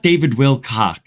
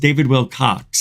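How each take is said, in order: First: The surname ends in a plain 'k' sound. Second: The surname ends in a 'ks' sound. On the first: The speaker calls it wrong. "It's not David Wilcock" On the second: The speaker calls it right. "It's David Wilcox. It's with an X"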